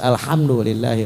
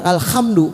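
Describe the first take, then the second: First: The h is said as a soft light h. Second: The h is said as a harsh throaty kh. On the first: The speaker calls it right. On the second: The speaker calls it wrong. "waduh pakai kho. Salah"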